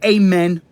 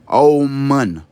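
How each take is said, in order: First: It starts with a plain 'ah' and ends in 'en'. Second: It starts with an 'aum' sound and ends in 'oon'. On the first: The speaker calls it wrong. "Don't say Amen" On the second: The speaker calls it right. "Say Aumun. The same way you would say your Om, but put the A in front of it"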